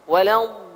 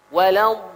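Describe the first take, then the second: No difference in how they are said.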